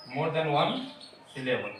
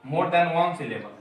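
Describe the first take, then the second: First: Said in the usual way. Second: Each word drawn out very slowly for students; slow dictation. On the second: Shown as a demonstration. Teacher dictating a term to the class, very slow. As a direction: spell out "more than one syllable" slowly, word by word.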